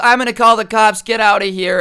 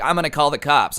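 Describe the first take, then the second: First: High, loud imitated shout; freaking-out mom. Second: Mild retold alarm; freaking-out mom. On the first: Mom ordering the man away, shouting in alarm. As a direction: yell it like a mother chasing off an intruder. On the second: Mom warning the man at her door, mildly freaking out. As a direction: lightly imitate a worried warning. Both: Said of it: "she's freaking out".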